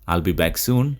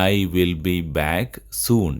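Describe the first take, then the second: First: "I will" is squeezed into one short syllable. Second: "I will" is said as two full words.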